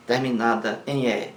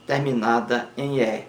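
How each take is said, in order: Both takes have the same delivery.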